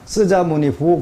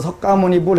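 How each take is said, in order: First: It is said as 'sseu-ja-mo-ni-hu'. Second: It is said as 'seok-ga-mo-ni-bul'. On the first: This is the reading used in China today. "중국 가서 석가모니불 해보라고 읽으면 쓰자모니후 그러거든" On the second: This is the reading from a thousand years ago. "석가모니 발음을 그 송나라 때는 석가모니 불 그렇게 했다"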